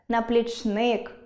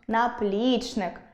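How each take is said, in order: First: The stress is on the third syllable. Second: The stress is on the second syllable. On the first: The speaker calls it wrong. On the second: The speaker calls it right.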